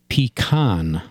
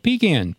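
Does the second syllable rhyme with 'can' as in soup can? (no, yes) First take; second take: no; yes. First: The second syllable does not sound like can. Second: The second syllable sounds like the word can. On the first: The speaker calls it wrong. "down here in Pennsylvania, they say pecan" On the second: The speaker calls it right. "that's the way it should be said"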